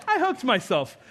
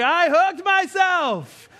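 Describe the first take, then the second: First: High, mock-polite announcement; hammed-up calm report; absurdly composed. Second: Loud, high, drawn-out wail; slow mock-hysterical yell of a hurt child; reenacted scream. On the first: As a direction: play it comically unbothered by the injury. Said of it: "It's not what I did at all". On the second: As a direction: cry out at full pitch, stretching the words. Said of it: "I screamed".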